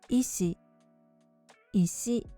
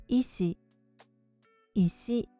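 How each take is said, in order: No difference in how they are said.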